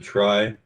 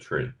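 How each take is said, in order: First: The word rhymes with 'eye'. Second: The word rhymes with 'see'. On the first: This is how most people here say it. "Most folks around here pronounce it try" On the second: This is how the inventor said it. "he pronounced it tree"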